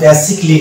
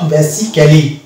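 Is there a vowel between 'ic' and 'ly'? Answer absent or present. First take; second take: absent; present. First: The ending goes straight from 'ic' to 'ly'. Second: The ending has a vowel between 'ic' and 'ly'. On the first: The speaker calls it right. "অর্থাৎ এটা হবে বেসিকলি" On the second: The speaker calls it wrong. "Not"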